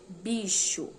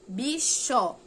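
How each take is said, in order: First: Said in the usual way. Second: "Bicho" loud, split as "bi-chó"; final sound isolated. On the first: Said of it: "Leia estas outras palavras". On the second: Shown as a demonstration. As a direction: stress an open "chó" at the end of "Bicho". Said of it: "Outro som". ("Bicho" forte, separado em "bi-chó")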